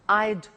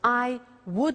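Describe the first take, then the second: First: The words are contracted into one syllable. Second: Both words are said in full.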